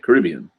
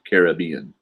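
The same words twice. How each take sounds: First: The stress is on the second syllable, 'rib'. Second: The stress is on the third syllable, 'bee'. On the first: This is how people from the region say it. The speaker calls it right. "Stressing the Carib" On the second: This is how outsiders say it. The speaker calls it wrong. "not Caribbean"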